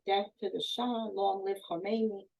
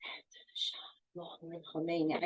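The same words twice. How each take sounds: First: Said in the usual way. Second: Barely audible whisper; a frightened girl whispering the forced slogan. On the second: Retold or imitated. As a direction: breathe the words out, scared to say them. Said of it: "I remember whispering it".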